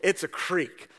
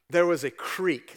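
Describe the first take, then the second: First: Creek said "kreek" with a long ee; firm correction, creek as kreek. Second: Creek said as "kreek", long ee. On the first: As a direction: insist on creek, long ee sound. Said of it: "It's not a crick". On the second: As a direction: say creek with a long ee, not crick. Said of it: "Some of you guys call it a crick". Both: Shown as a demonstration.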